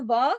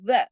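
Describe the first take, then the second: First: The vowel is drawn out long. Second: The vowel is kept short. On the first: The speaker calls it wrong. "इसको वा नहीं करना" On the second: The speaker calls it right. "ये सिर्फ़ व पढ़ा जाएगा, एक हरकत"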